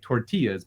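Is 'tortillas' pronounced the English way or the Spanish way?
English. It is said with an English-style pronunciation. The speaker calls it wrong. "We would say it tortillas"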